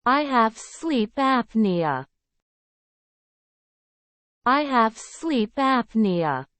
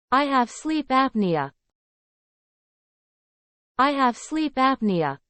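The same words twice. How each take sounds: The two takes are said the same way.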